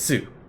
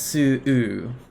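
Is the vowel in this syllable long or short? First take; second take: short; long. First: The vowel is kept short. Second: The vowel is held out long. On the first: "instead of just Su" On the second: "it's held out longer as Su"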